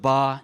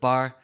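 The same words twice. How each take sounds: First: The final R sound is dropped. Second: The final R sound is pronounced.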